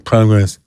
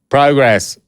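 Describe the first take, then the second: First: The word is said flatly and wearily. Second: The word is said brightly and eagerly. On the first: The kids are tired of hearing the saying. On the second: The kids answer willingly.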